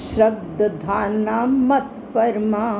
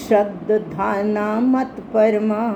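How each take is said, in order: No difference in how they are said.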